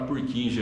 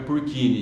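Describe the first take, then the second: First: The J is said with a J sound. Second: The J is said with a U sound. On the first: This is the usual local way of saying it. "A gente fala Purkinje aqui" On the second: This follows the name's original country. "O J tem som de U, então é Purkinje"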